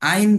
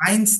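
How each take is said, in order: First: The word ends without an s sound. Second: The word ends with an s sound. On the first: The speaker calls it right. "এসটা বাদ যাবে শুধু।" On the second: The speaker calls it wrong. "কিন্তু আইনস না।"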